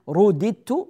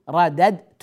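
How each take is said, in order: First: The vowel before the last consonant is 'i'. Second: The vowel before the last consonant is 'a'. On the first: The action was done to the subject. "فهنا رددت مكسور ما قبل الآخر" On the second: The subject performed the action. "أما إذا كان مبني للفاعل أقول أنا رددت، رددت مفتوح"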